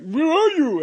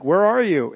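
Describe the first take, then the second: First: "Where are you?" said much higher, drawn out on "are"; a high mock echo of a friend; imitating Nicholas. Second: Said in the usual way.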